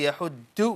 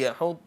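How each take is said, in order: First: The last consonant is a plain d sound. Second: The last consonant is a heavy emphatic sound. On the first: The speaker calls it wrong. "We don't say يحد" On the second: The speaker calls it right. "we say يحض على"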